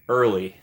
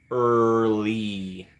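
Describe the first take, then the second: First: Said in the usual way. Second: EARLY stretched very long on a level tone; drawn-out word. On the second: Real, not acted. Streamer remarks on a viewer's arrival, EARLY slowly drawn out.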